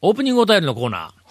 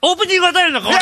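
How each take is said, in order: First: It is said with low, flat energy. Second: It is said with raised, lively energy.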